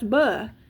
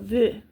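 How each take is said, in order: First: The letter is said with a B sound. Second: The letter is said with a V sound. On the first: The speaker calls it wrong. "No, it's not buh" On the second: The speaker calls it right. "it's v"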